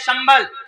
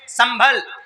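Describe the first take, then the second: First: The name begins with an 'sh' sound. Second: The name begins with a plain 's' sound. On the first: It names the place of peace in the mantra. "वो शाह से है" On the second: It names the town in Moradabad. "जो स है वो सीन है"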